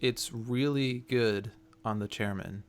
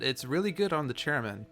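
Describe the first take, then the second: First: It is said in a very flat monotone. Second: It is said with some natural expression.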